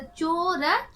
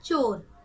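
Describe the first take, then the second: First: चोर with long चो, separate र; चोर spelt aloud as चो... र; sounded out. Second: Said in the usual way. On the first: Shown as a demonstration. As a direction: break चोर into its two letters. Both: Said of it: "च में ओ की मात्रा".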